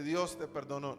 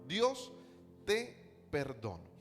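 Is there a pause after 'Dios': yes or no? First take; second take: no; yes. First: It runs on with no pause after Dios. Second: There is a pause right after Dios. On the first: God forgave you. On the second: God is addressed and told he is forgiven.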